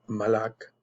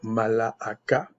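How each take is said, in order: First: The word ends in a k sound, no vowel. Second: The word ends with a final a vowel. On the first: "on ne prononce pas le A, donc ça va faire euh, malak" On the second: "parce que je vais prononcer toutes les lettres"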